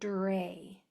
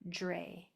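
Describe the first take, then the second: First: It begins with a clear, crisp D and R. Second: It begins with a sound like J then R. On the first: The speaker calls it right. "I want to hear the D and the R" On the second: The speaker calls it wrong. "if you say it sloppily, it'll sound like a J R"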